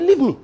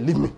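First: "Leave me" higher and louder, fed up; irritated refusal. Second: Said in the usual way. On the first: Retold or imitated. Mary, pressed again by Martha, answers annoyed. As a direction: snap "Leave me" back, clearly annoyed. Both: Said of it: "Mary said".

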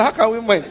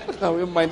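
First: Chuckling, a bit higher and louder; a grinning worker shrugs it off; laughing reply. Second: Said in the usual way. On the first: Retold or imitated. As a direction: laugh it off happily. Workers react to dollar payment. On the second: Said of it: "repeats the quote in own voice".

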